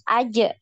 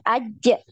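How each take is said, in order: First: The final j flows straight on without holding. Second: The final j is held and pushed upward. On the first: The speaker calls it right. "dibacanya langsung ngalir aja" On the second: The speaker calls it wrong. "jangan ditahan, di dinaikkan seperti itu ya"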